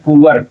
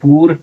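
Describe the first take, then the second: First: The vowel glides from oo to uh. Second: The vowel is a plain long oo. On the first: The speaker calls it right. "पुअर हो जाता है" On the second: The speaker calls it wrong. "पूर नहीं"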